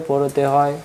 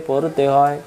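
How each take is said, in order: Both takes have the same delivery.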